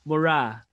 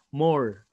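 First: It is said like mora, with two syllables. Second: It is said like the word more. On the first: "or Mora" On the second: "I was pronouncing it as more"

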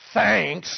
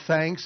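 First: It sounds sarcastic and annoyed. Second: It sounds sincere and friendly.

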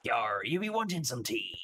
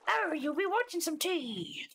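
First: It is a gruffer old lady pirate voice. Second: It is a more feminine old lady voice.

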